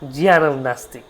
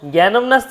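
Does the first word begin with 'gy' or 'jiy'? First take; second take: jiy; gy. First: The first word begins with a 'jiy' sound. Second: The first word begins with a 'gy' sound. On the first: The speaker calls it right. "এখনও দক্ষিণ ভারতে অনেকে জিয়ানই বলে" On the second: The speaker calls it wrong. "জ্ঞানম নাস্তি না"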